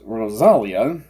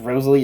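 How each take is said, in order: First: The name ends in an ah sound. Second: The name ends in an ee sound. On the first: The speaker calls it right. "It's Rosalia" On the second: The speaker calls it wrong. "I've been pronouncing it as Rosalie"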